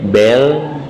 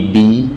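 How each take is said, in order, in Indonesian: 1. Vokalnya terdengar seperti e. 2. Vokalnya terdengar seperti i. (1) "jangan dibaca dengan e" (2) "bi dibaca dengan i"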